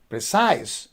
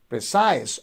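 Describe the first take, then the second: First: The stress is on the second syllable. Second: The stress is on the second syllable.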